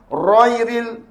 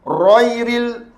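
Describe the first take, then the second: The two takes are said the same way.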